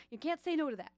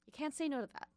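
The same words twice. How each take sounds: First: Put-on New York accent. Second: Said in the usual way. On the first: DJ hyping pizza to listeners in a slight New York accent. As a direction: toss it off in a slight New Yorker twang. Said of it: "slightly New Yorkian accent". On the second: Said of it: "weird, slightly New Yorkian accent".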